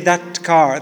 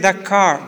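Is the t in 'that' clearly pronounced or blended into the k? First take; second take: clear; blended. First: The t of 'that' is clearly pronounced. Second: The t of 'that' blends into the k. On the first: The speaker calls it wrong. "it's difficult to say that car" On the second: The speaker calls it right. "It's easier to say that car"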